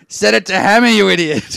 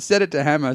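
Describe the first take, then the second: First: Loud, high, exasperated shout imitated; neighbour's yell. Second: A touch louder, half-hearted yell; mild mock yell, barely raised; light retold yell. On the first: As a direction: yell it like a fed-up neighbour through a wall. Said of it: "My neighbour yells out". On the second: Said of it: "He yells out".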